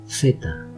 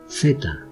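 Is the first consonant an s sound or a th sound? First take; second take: th sound; th sound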